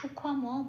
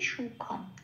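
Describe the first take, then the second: First: The final m carries a full following vowel. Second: The final m is a bare closing consonant. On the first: The speaker calls it wrong. "সুখম বলতে পারবো না" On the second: The speaker calls it right. "অর্ধম হিসেবে উচ্চারিত হবে, তার মানে ক্ষয়ের সাথে জুড়ে উচ্চারিত হবে"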